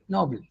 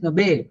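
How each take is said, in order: First: "Noble" stressed on the first syllable; "Noble" with a weak, short ending; noble, not Nobel. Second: "Nobel" said no-BEL; "Nobel" with a drawn-out, stressed second syllable. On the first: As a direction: say "Noble" as NO-bul. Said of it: "That can be noble". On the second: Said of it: "Second syllable is stressed". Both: Shown as a demonstration.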